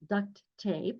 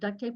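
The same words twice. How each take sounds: First: The t at the end of 'duct' is clearly sounded. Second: The t at the end of 'duct' is dropped. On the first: The tape is named for holding ducts together. The speaker calls it right. "it's duct tape because we use this type of tape to um, uh, to uh, hold ducts together" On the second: The name is heard as if it referred to the animal. The speaker calls it wrong. "It's not duct tape, although children will say duct tape"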